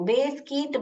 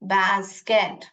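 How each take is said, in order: First: The first vowel is long, as in base. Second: The first vowel is short, as in bag. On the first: The speaker calls it wrong. "मैं इसका long sound निकाल रही हूँ" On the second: The speaker calls it right. "Closed syllable होने के वजह से ये अपना साउंड ही निकलेगा"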